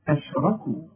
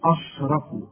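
First: The opening vowel sounds light and thin. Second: The opening vowel sounds heavy and thick. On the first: The speaker calls it right. "هنرقق آه دي ... ادي كل حرف حقه" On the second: The speaker calls it wrong. "أرجوك ما تقولش أشركوا"

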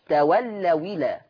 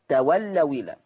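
The two takes are said the same way.

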